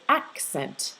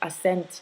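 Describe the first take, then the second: First: The word is said with both K and S. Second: The word is said without a K sound. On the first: The speaker calls it right. "you'll want to pronounce it accent" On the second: The speaker calls it wrong. "I heard accent"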